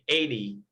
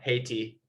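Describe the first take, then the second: First: The word begins without any H sound. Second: The word begins with a clear H sound. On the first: "Unless you're English, then you would just say eighty" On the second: "No, you say it"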